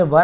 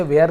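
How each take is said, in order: First: "वर" with a short central vowel; correct "were" pronunciation. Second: "वेयर" said like "where"; mispronunciation of "were". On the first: Teacher correcting how students read were, "वर" with a short vowel. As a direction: say "वर" as "wur", not like "where". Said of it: "इसे वेयर नहीं पढ़ेंगे, वर". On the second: Teacher showing students the reading to avoid, "वेयर" sounding like "where". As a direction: give "वेयर" the wrong "where" vowel, as a warning. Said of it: "इसे वेयर नहीं पढ़ेंगे". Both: Shown as a demonstration.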